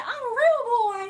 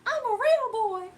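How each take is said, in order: First: Very high, loud mock whine; squeaky insistence on real; laughing viewer line voiced as Dimitri; Dimitri impression. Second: Very high mock whine again; squeaky stress on real; repeating the viewer's Dimitri line; Dimitri impression. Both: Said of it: "somebody said".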